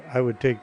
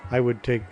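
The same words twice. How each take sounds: The two takes are said the same way.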